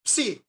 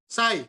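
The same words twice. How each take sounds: First: The word is pronounced the Greek way. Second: The word is pronounced the English way. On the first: "Pero sa Greek Erasmian pronunciation" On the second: "Pero yung pronounce sa English"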